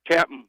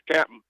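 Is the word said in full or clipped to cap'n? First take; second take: clipped; clipped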